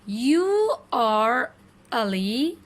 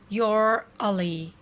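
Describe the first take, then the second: First: It is said as two full words. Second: It is said as one contracted syllable. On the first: "basic form" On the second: "you would pronounce it like this"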